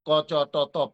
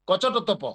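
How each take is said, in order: First: The letters are separated by gaps. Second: The letters are run together quickly. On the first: The speaker calls it wrong. "Gap দিয়ে না, ক চ ট ত প এরকম না" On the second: The speaker calls it right. "একেবারে দ্রুত গতিতে"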